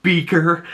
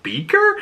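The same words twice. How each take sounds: First: Said in the usual way. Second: Much higher, rising confused question; puzzled echo. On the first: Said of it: "in the store and goes". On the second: Retold or imitated. Tall ginger kid hearing his new nickname, baffled rise. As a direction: repeat the nickname in disbelief. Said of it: "and he's like".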